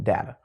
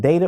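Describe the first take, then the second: First: "data" as DAT-uh; DAT-uh pronunciation. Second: "data" as DAY-tuh; DAY-tuh pronunciation. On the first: Teacher putting the question back to viewers, "data" as DAT-uh. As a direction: say "data" with a short A, like cat. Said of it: "or is it data". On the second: Teacher putting the question back to viewers, "data" as DAY-tuh. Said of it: "So is it data or is it data". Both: Shown as a demonstration.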